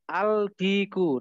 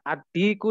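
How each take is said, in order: First: A clear L is pronounced before the D. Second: The L is absorbed into a doubled D sound. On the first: The speaker calls it wrong. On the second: The speaker calls it right.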